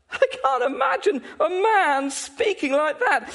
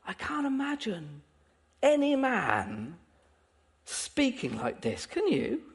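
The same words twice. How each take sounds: First: High-pitched, emphatic amazement; incredulous. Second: Hushed wonder. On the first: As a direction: exclaim it in ringing disbelief. Preacher marvels, rising to a peak. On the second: Same thought, brought down to hush. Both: Real, not acted.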